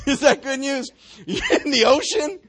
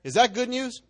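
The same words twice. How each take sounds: First: Asked through a real laugh. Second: Said in the usual way. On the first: Real, not acted. Preacher laughs at the verse with the congregation, laughing. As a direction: laugh as you ask it.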